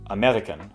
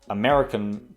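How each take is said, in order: First: The R is rolled like a double R. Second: The R is a plain English R.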